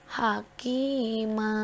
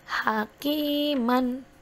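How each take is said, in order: First: The word ends with a long a vowel. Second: The word ends with a final -an sound. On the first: The reader stops at this word. "tetapi ketika harus diwaqaf hakima ya" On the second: The reading continues without stopping. "Contoh hakiman"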